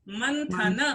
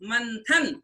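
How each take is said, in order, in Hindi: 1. शब्द एक छोटे अंतिम स्वर से समाप्त होता है। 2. शब्द अंतिम व्यंजन पर समाप्त होता है। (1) "किंतु शब्द क्या है?" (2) "हमने उच्चारण अभी तक यहाँ बोला है"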